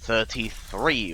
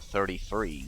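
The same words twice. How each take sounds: First: It is said without an American accent. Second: It is said with an American accent.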